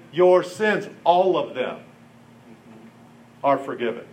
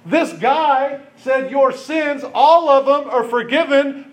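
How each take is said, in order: First: Gentle pronouncement. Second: Higher and louder, stunned by "all of them"; incredulous retelling. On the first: Jesus's words, said gently. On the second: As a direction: say it like you can't believe he dared. The teachers' outraged view of it. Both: Retold or imitated.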